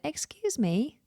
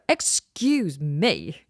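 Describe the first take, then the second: First: It sounds polite, with a gently rising tune. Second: It sounds curt, without a friendly rising tune. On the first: The speaker is politely asking for attention. The speaker calls it right. "A nice tone, kind of rising intonation" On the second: The speaker is being impatient or rude. The speaker calls it wrong. "then that's completely different"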